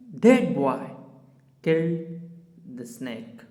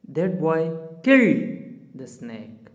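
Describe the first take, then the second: First: The stress is on boy. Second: The stress is on killed.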